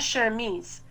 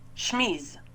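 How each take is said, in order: First: The vowel after the first sound is pronounced. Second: The vowel after the first sound is dropped. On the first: The speaker calls it wrong. "C'est pas chemise" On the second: The speaker calls it right. "c'est chemise"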